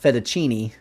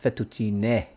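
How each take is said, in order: First: The word is said with a 'knee' sound. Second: The word is said without a 'knee' sound. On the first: The speaker calls it wrong. "it's not fettuccine" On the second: The speaker calls it right. "No knees in fettuccine"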